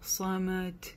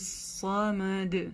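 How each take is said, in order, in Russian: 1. Конечный согласный оглушается, как т. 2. Конечный согласный — звонкий д. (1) "буква даль в конце тоже не глушается. Не говорим самад" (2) "То есть в этом случае вот так читается"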